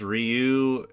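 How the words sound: The name is said the Japanese way. This is how it is said in Japan. "pronounced Ryu in Japan"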